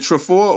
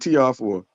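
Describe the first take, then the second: First: The letters T R are blended into one word. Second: The letters T and R are said separately.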